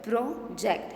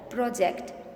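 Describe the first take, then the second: First: "Project" broken as pro, ject; teacher separating both halves of "Project"; split into syllables. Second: Said in the usual way. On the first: Shown as a demonstration. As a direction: say "Project" in two distinct beats. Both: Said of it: "How many syllables?".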